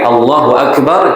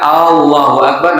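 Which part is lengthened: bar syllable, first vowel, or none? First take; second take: none; first vowel. First: All vowels have normal length. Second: The first vowel of Allahu is drawn out. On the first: A plain statement that God is greatest. The speaker calls it right. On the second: It becomes a question asking whether God is greatest. The speaker calls it wrong. "jangan Allahu Akbar, nanti pertanyaan apakah Allah Maha Besar?"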